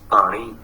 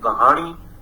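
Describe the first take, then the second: First: No h sound is heard between the vowels. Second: An h sound is heard between the vowels. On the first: This is the Punjabi form. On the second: This is the Persian or Urdu form.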